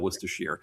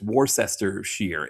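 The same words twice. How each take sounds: First: The word is said with a New England pronunciation. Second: The word is said with a Pennsylvania pronunciation. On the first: The speaker calls it right. "you just add sheer on the end, and you've got it" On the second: The speaker calls it wrong. "here in Pennsylvania, they pronounce it Worcester"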